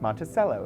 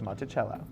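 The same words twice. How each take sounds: First: It is said the local Iowa way. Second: It is said the European way. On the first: This is how people in that place say it. "I just learned their pronunciations and used them there" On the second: This is how the name is said in Europe. "instead of"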